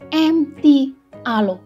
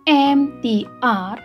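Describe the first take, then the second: First: The final letter is said as alo. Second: The letters use English names, ending in ar. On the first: "orang Hong Kong menjelaskan M T R kadang-kadang menjadi M T Alo" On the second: "seharusnya dibaca dengan abjad bahasa Inggris"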